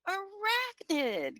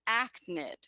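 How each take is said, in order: First: The word is said with all its syllables. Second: The opening syllables are dropped from the word. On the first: The speaker calls it right. "modeling correct pronunciation" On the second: The speaker calls it wrong. "they mispronounced it, and they said achnid"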